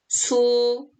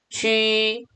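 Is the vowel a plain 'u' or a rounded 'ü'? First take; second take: plain u; rounded ü. First: The vowel is a plain 'u' sound. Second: The vowel is a rounded front 'ü' sound. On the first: The speaker calls it wrong. "우니까 주, 추, 수, 이지요? 아니에요" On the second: The speaker calls it right. "점 두 개 땡땡이가 생략된 위 발음입니다"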